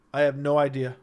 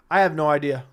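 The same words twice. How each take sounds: The two takes are said the same way.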